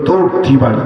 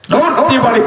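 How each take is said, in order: First: Said in the usual way. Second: দৌড়তি বাড়ি lifted high and urgent; raised retelling. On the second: Acted. Preacher repeats the run, climbing higher. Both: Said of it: "repeated, escalated".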